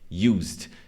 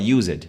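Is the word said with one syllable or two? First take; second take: One; Two. First: The word is said as one syllable. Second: The ending is said as an extra syllable. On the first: The speaker calls it right. "como se não tivesse o e" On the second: The speaker calls it wrong. "você não fala used"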